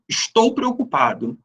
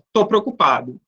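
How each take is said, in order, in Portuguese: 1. A primeira palavra é falada completa. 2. A primeira palavra é falada reduzida. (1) "A norma culta é a forma linguística ensinada nas escolas" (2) "No dia a dia, daquela maneira mais popular"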